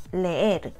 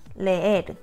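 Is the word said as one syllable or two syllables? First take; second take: two syllables; two syllables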